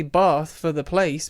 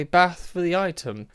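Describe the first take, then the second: First: BATH with a long "ah" as in father; long-vowel Bath. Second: BATH with a short "a" as in cat; short-vowel bath. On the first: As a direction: say BATH as "Bahth", the place name. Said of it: "I say Bath for the place". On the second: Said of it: "I say Bath for the item". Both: Shown as a demonstration.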